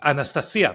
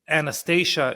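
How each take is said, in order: First: The name is pronounced the Russian way. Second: The name is pronounced the American way. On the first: "That's not how you say her name in, in Russian. It's Anastasia" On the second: "Anastasia in America"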